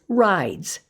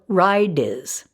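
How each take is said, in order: First: The ending is a plain s sound. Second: The ending is said as an extra syllable. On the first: The speaker calls it right. "it's suffix s" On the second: The speaker calls it wrong. "They mispronounce it as ridiz"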